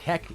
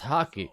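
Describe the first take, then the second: First: The first vowel sounds like in 'hack'. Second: The first vowel sounds like in 'hock'. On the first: The speaker calls it wrong. "For a while I thought it was hacky, like hacky, hacky sack" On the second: The speaker calls it right. "but no, different sport. It was hockey"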